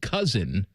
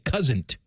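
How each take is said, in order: First: The word ends without a t sound. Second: The word ends with an added t sound. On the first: "instead of saying cousin" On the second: "would say cousin't"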